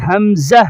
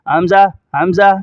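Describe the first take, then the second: First: "حمزہ" with a distinct z and breathed final h; careful hamza. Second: "حمزہ" said loosely as "amza", ending open; wrong hamza. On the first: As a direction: finish "حمزہ" on a clear short "zah". ("حمزہ" کو واضح ادا کر کے) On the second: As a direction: drop the breath from "حمزہ", quick "amza". ("حمزہ" کا غلط تلفظ، "امزا") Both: Shown as a demonstration. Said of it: "اس طرح نہیں".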